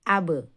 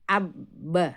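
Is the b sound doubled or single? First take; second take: single; doubled. First: The b is single, with no vowel after it. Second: The b is doubled and held longer. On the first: "Jika kita sukun menjadi abe" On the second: "ketika kita tasdid ... pelafalannya akan berubah"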